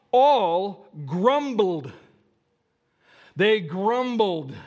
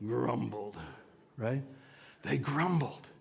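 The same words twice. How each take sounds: First: Drawn-out "grumbled" said slow and loud with a sour drag; "grumbled" stretched and grumbling; grumbly delivery. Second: Said in the usual way. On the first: Shown as a demonstration. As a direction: moan the word "grumbled" slowly. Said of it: "how do you say grumbled without sounding grumbly". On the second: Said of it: "without sounding grumbly".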